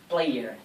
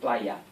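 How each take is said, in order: First: It is said with an American accent. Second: It is said with an Australian accent. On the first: "we never say here in Australia player" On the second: "we tend to say player"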